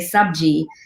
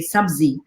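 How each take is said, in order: First: The middle consonant is a j sound. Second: The middle consonant is a z sound. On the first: This is how it is said in the north. "in the north, where I'm from, we say sabji" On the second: This is how it is said in the south. "in the South they say sabzi"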